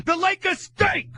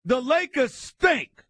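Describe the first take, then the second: First: Slow, loud, high shout of disgust; angry shout. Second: Slow, loud, high furious verdict; angry rant. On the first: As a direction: drag it out, yelling in disgust. Host rants, shouting verdicts. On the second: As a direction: spit it out slowly, disgusted. Ranting host blasts the Lakers. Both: Real, not acted.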